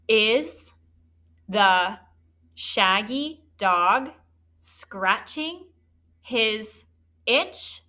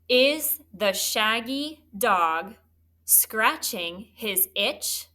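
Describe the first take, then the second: First: The sentence is read at a slow pace. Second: The sentence is read at a fast pace.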